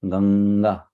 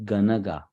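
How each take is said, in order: First: The n runs straight into the g. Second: An extra vowel separates the n and g. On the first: The speaker calls it right. "it is Ganga" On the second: The speaker calls it wrong. "it is not Ganaga"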